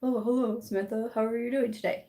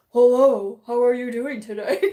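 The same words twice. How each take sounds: First: Said in the usual way. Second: Loud, booming phone voice; exaggerated husband-on-the-phone impression; [name]. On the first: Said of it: "here's regular [name]". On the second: Shown as a demonstration. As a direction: put on a hammed-up telephone hello. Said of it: "Here's phone [name]".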